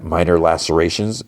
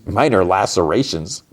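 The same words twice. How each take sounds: First: Said in the usual way. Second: Disbelieving repeat, pitch bobbing questioningly; incredulous echo. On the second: Real, not acted. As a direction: echo it as if you can't believe it.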